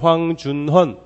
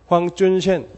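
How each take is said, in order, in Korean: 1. 이 이름은 한국식 발음으로 읽어요. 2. 이 이름은 중국식 발음으로 읽어요.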